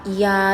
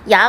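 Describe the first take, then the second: First: The vowel is slowed, splitting into two sounds. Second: The vowel is said quickly as one sound.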